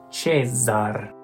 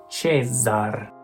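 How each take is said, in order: No difference in how they are said.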